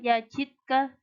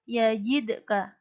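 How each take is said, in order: First: The d is said flat without a bounce. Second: The d is said with an echoing bounce. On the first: The speaker calls it wrong. "tidak boleh dibaca yajidka" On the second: The speaker calls it right. "harus ada pantulannya"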